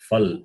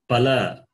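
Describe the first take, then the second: First: It starts with f and ends on a consonant. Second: It starts with p and ends with a vowel. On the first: The speaker calls it wrong. "not fal" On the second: The speaker calls it right. "it is pala"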